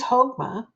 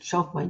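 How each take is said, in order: First: It begins with a throaty h sound. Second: It begins with a ch sound. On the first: "it's pronounced like Ha, like the Spanish uh, version of the J" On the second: "if you want to pronounce it Chokmah, you can"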